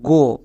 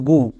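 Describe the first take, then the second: First: The vowel is said as "oh". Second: The vowel is said as "oo". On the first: The speaker calls it right. "ও এর জন্য ওকার" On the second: The speaker calls it wrong. "অনেকে করছো গু, but এর উচ্চারণ গু হবে না"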